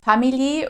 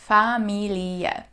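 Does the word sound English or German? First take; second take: English; German. First: It sounds like the English word family. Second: Every letter is pronounced, the German way. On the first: The speaker calls it wrong. "which sounds like the English word family" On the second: The speaker calls it right. "in German we pronounce every single letter"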